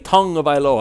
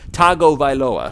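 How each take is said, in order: First: The name begins with a 'tung' sound. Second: The name begins with a plain 'tah-go' sound. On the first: The speaker calls it right. "I didn't say tongue of Iloa" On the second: The speaker calls it wrong. "I said Tago Vailoa, which was incorrect"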